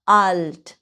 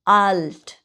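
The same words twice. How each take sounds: First: আল্ট repeated with the same drawn-out falling a; long vowel again. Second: আল্ট with a stretched, falling a; long vowel demo. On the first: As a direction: hold the a in আল্ট once more. (আবার আল্ট লম্বা টানে) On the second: (আল্ট শব্দে লম্বা টান) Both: Shown as a demonstration. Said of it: "টান হবে কোন জায়গায়?".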